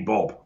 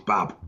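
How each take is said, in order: First: The syllable is said like 'bob'. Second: The syllable is said like 'bab'. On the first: The speaker calls it wrong. "So why would it be Bob?" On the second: The speaker calls it right. "It's Bab"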